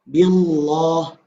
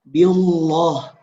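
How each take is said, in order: Both takes have the same delivery.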